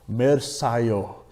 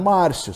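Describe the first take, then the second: First: The vowels are pronounced with English letter sounds. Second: The vowels are pronounced with Portuguese letter sounds. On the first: The name is read by English spelling rules. "É eu lendo o meu nome em inglês" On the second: The name is read as it is normally said. "meu nome é Márcio"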